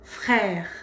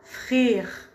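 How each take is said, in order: First: Frère with an open è, falling; correct frère. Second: Frère said as frir, i instead of è; wrong vowel demo. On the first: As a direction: model the right frère, è open. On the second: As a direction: show the mistake slowly: frère with i. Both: Shown as a demonstration. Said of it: "C'est pas frère, non".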